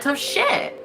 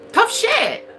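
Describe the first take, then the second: First: Said in the usual way. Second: Pitched way up for a second, sassy tough shit; mocking high repeat of tough shit; defiant repeat, much higher. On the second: Shown as a demonstration. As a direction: fling it back higher and sassier.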